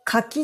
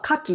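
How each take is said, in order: First: The pitch accent is the persimmon pattern. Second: The pitch accent is the oyster pattern. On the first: The word names the fruit. "千葉っ子の私は柿って言ってました。" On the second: The word names the shellfish. "海産物の方は柿って。"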